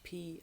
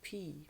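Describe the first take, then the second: First: The word ends in an 'ee' vowel. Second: The word ends in an 'ee' vowel.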